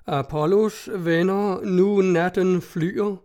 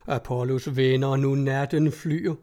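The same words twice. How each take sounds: First: Slow, raised, slightly unsure poem reading; solemn recital. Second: Mocking. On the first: A narrator's reading. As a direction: recite it proudly but unsure. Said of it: "med høj, noget usikker røst". (langsom, højtidelig oplæsning) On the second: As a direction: read it as worthless drivel. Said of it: "hør så dit vås". (hånligt, dæmpet citat)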